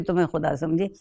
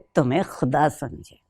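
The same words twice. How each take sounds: First: It is said in a delighted, pleased tone. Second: It is said in a disappointed, annoyed tone.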